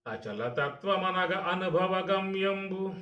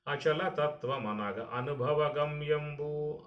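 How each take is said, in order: First: Slow, high, drawn-out chanting of అచలతత్వమనగ అనుభవ గమ్యంబు; poem recitation. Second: Said in the usual way. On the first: Shown as a demonstration. Teacher reciting Vemana's verse to listeners, in slow chant.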